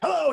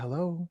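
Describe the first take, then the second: First: The word is said loudly and energetically. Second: The word is said quietly and softly. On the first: The caller ignores how the other person speaks. The speaker calls it wrong. "you can't be like" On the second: The caller matches a quiet-spoken person. The speaker calls it right. "If they talk really soft"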